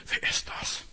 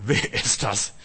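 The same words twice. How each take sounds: First: Hushed unvoiced whisper; whispered question. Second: Said in the usual way. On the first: Disciples secretly whispering among themselves, a hushed whisper. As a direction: whisper it as if afraid to be overheard. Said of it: "Die haben untereinander nur getuschelt". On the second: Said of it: "keiner traute zu fragen".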